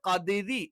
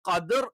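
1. ഈ വാക്ക് i ചേർന്ന നേർത്ത r ശബ്ദത്തിൽ അവസാനിക്കുന്നു. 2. ഈ വാക്ക് കനത്ത r ശബ്ദത്തിൽ അവസാനിക്കുന്നു. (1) "നാവിന്റെ മധ്യഭാഗം താഴ്ന്നു നിൽക്കണം" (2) "നാവിന്റെ മധ്യഭാഗം ഉയർന്നിട്ട് ഖദർ തഫ്ഹീം എന്ന് പറയും"

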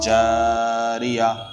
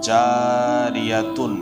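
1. শব্দটি নরম 'h' ধ্বনি দিয়ে শেষ হয়। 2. শব্দটি 'tun' ধ্বনি দিয়ে শেষ হয়। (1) "দাঁড়াবার সময় হা হয়ে যায়" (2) "জারিয়াতুন ছিল আসল"

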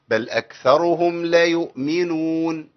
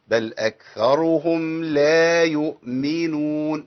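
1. الصوت بعد اللام قصير. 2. الصوت بعد اللام طويل. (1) "احذف الالف بعد لا ... دي مصيبة" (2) "لابد من بيان الالف"

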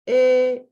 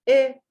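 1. Uzatılarak okunur. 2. Kısa okunur.

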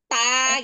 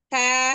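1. Suku katanya diucapkan terlalu keras. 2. Suku katanya diucapkan dengan tenaga sedang, lebih ringan.

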